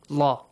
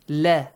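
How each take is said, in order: First: The l is thick with a deep vowel. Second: The l is thin with a bright vowel. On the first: "pronouncing it with a heavy sound" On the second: "we pronounce it with an a sound"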